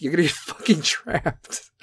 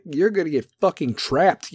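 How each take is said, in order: First: Laughing through it. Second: Said in the usual way. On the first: Real, not acted. Repeat laughing.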